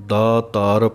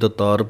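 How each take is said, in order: First: The first vowel is long. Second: The first vowel is short. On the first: The speaker calls it right. "ਦਾਤਾਰ ਪਾਠ ਸ਼ੁੱਧ ਹੈ" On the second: The speaker calls it wrong. "ਕਈ ਦਤਾਰ ਪੜ੍ਹ ਜਾਂਦੇ ਹਨ"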